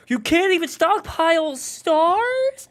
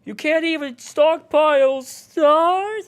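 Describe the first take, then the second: First: High, slow, disbelieving whine; high incredulous take. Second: High, slow strained yell; attempted yell. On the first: Retold or imitated. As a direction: stretch it out in shrill disbelief. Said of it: "I delivered it in several ways". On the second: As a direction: try to yell it out. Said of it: "the one where I tried to yell".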